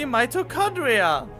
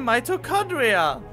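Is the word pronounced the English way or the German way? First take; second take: English; English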